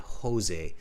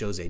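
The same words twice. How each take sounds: First: The name begins with an H sound. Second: The name begins with a J sound. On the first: The speaker calls it right. "Spanish speakers pronounce it as a h sound" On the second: The speaker calls it wrong. "not Jose"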